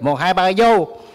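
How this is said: It is said in a Southern Vietnamese accent. "a southern be like"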